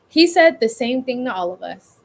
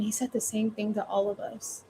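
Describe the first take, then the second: First: It sounds declared outward to everyone. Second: It sounds like private talk to oneself. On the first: The speaker is exclaiming to anyone listening. "Or you can do" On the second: The speaker is reflecting privately. "Or you could say it to yourself"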